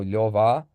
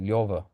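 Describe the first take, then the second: First: The name ends in a full, open 'ah'. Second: The name ends in a light, darker 'uh'. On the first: This is how Armenians say it. "I think Armenians go ah. So we go Lyova" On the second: This is how Russians say it. "Russians go Lyova sometimes... a bit darker"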